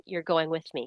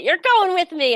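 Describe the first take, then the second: First: Said in the usual way. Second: Loud, high, triumphant insistence; excited announcement. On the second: Retold or imitated. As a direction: burst out with it, pitch leaping up. Emphatic repeat of news to husband.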